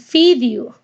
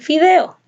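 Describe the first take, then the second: First: It ends with an Áncash-style 'iu' sound. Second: It ends with a clear 'eo' sound.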